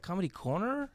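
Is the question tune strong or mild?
mild. It sounds like a mild, ordinary question.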